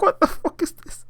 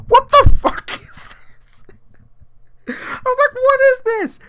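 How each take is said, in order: First: Whispered high disbelief; stunned whisper. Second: High, loud, slow stunned cry; shocked disbelief. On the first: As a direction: breathe it out in shock. Whispered reaction to Netflix clip. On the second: Reacting to twerking scene. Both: Retold or imitated.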